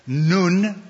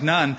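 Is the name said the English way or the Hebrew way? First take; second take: Hebrew; English. First: The name is given a Hebrew pronunciation. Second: The name is said as the English spelling suggests. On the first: "I like to give it the Hebrew pronunciation" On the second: "I know it looks like Nun"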